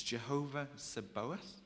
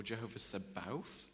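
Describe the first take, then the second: First: "Sabaoth" in three beats, sa-BO-ath, rising questioningly; unsure pronunciation. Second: "Sabaoth" in two beats, sa-BOWTH, rising at the end; alternative pronunciation. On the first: Speaker tries a hard name on the congregation, unsure sa-BO-ath in "Sabaoth". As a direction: say "Sabaoth" tentatively as suh-BOH-uth. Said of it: "I don't know how to say this". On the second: Speaker offers another way of saying it, tentative sa-BOWTH in "Sabaoth". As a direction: say "Sabaoth" as suh-BOWTH, vowel as in "cow". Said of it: "so many different ways of saying it".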